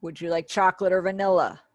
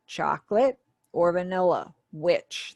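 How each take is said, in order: First: Said in the usual way. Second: "Chocolate", "or vanilla", "Which" as separate chunks with pauses; sign-by-sign gloss. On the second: Shown as a demonstration. Teacher glossing a signed question, "Chocolate or vanilla? Which?" broken into separate chunks. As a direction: pause after "Chocolate" and set "Which" apart at the end. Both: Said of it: "That's how you would gloss that question".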